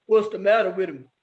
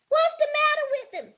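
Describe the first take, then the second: First: Low put-on boy voice; deep boyish question; boys asking. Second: Very high squealed question; high-pitched girlish cry; girls yelling. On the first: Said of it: "the boys wanted to know". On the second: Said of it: "The girls yelled out". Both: A narrator's reading.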